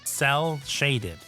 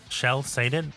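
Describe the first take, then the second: First: The first word begins with an s sound. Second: The first word begins with a sh sound. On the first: The speaker calls it right. "I think I pronounced that correctly" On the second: The speaker calls it wrong. "Sh- shell-shaded? What? Fish, come on. Speak English properly"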